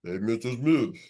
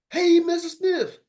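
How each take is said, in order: First: Much lower, deep greeting; low greeting variant. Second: Much higher, slow and louder; high greeting variant. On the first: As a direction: drop the voice down. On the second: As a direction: stretch it up high. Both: Shown as a demonstration. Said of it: "start changing up and everything".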